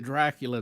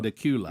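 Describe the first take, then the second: First: "Dracula" with an R, like the vampire; wrong town pronunciation. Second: "Dacula" with no R, stress on the CU; corrected town pronunciation. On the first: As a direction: say "Dracula" as DRAK-yuh-luh. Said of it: "I would call it Dracula". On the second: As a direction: say "Dacula" as duh-KYOO-luh. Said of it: "and he would say, "You mean Dacula?". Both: Shown as a demonstration.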